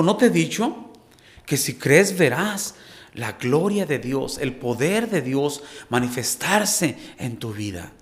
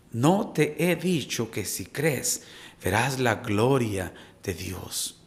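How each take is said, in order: First: Pregunta de Jesús, empieza más alto; Jesús hablando. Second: Lento, más bajo y suave; repítelo como promesa íntima; tierno recordatorio. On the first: Retold or imitated. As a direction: cita las palabras de Jesús con fuerza. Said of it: "Jesús le dijo". (voz de Jesús citada, con arranque alto) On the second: Acted. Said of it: "Hoy Dios nos recuerda nuevamente". (lento y suave, tono íntimo y tranquilizador)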